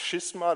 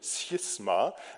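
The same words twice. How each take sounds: First: It begins with a 'sh' sound, as in Schiss. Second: It begins with an 's' then a 'ch' sound. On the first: The speaker calls it wrong. "Nicht Schisma, das hat also nichts mit Schisshase oder so zu tun" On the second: The speaker calls it right. "sondern Schisma"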